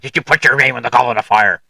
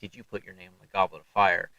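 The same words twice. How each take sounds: First: The question is asked aggressively and forcefully. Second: The question is asked calmly and quietly.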